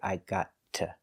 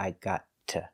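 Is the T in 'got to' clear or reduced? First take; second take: clear; clear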